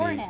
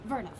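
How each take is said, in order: First: The word begins with a W sound. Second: The word begins with a V sound. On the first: The speaker calls it wrong. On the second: The speaker calls it right. "but it's pronounced"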